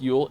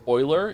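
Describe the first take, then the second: First: The word is said with an English pronunciation. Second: The word is said with a German pronunciation. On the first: The speaker calls it wrong. "Yule isn't pronounced Yule" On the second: The speaker calls it right. "It's Euler. It's German for owl"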